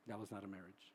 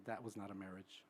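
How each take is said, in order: First: "That" stressed again, lower and softer; quieter firm repeat. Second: "That" leaned on, low and firm; firm stress on that. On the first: Therapist repeating to an elderly client, softer with "That" stressed. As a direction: repeat it quietly with "That" still leaned on. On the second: Therapist correcting an elderly client, stressing "That" low and firm. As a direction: set "That" down hard, no arguing. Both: Retold or imitated. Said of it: "I corrected them and say".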